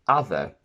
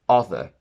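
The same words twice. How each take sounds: First: The first vowel is an 'ah' sound. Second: The first vowel is an 'o' sound. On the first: The speaker calls it right. "We say other" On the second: The speaker calls it wrong. "not other"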